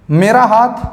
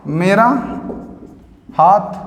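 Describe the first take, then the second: First: Said in the usual way. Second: Each word alone, long pauses; slow dictation. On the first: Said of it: "teacher gives example phrase". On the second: Shown as a demonstration. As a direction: dictate for the class to note down. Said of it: "teacher dictates word by word". (रुककर धीमे बोलकर लिखवाना)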